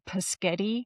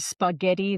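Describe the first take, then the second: First: The opening sounds are swapped, giving 'paschetti'. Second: The word is said in its usual sound order. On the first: The speaker calls it wrong. "they will say paschetti" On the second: The speaker calls it right. "instead of saying spaghetti"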